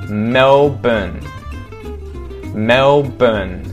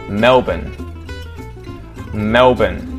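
The two takes are said the same way.

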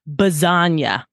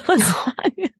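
First: The word begins with a b sound. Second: The word begins with an l sound. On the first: A small child's way of saying it. The speaker calls it wrong. "she puts a B in front of a lot of things" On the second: The standard way of saying it. The speaker calls it right. "it's lasagna"

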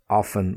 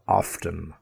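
First: The T in the middle is silent. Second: The T in the middle is pronounced. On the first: "with often" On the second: "we also have often"

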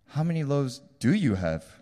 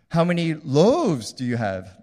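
First: The stress is on "how many". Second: The stress is on "loaves".

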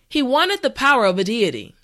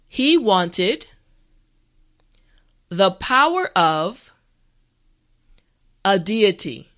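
First: The sentence is spoken at a normal pace. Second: The sentence is spoken slowly and carefully. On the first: "the last time at a regular pace" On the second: "this time repeat after me"

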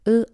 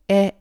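First: The letter is named with an 'uh' sound. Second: The letter is named with an 'eh' sound. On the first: "프렌치는" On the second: "독일어는"

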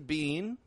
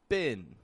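First: The vowel is a long ee sound. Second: The vowel is a short, quick i sound. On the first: "You can pronounce this bean" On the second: "if you change that E sound to a quick I"

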